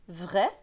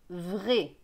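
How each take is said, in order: First: The vowel is open, like è. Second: The vowel is closed, like é. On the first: This follows the reading method's rule. "selon la méthode Bocher, c'est R" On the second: This is the speaker's regional way. "Dans ma région, ce sera E"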